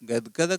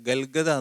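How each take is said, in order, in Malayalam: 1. ഈ കൂട്ടക്ഷരം d ശബ്ദത്തോടെയാണ് പറയുന്നത്. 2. ഈ കൂട്ടക്ഷരം l ശബ്ദത്തോടെയാണ് പറയുന്നത്. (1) "ഗൽഗത എന്നൊരു വാക്കില്ല, ഗദ്ഗത" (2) "ഗൽഗത എന്നാണോ? ... അങ്ങനെയല്ല"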